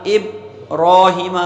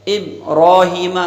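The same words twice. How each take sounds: Both takes have the same delivery.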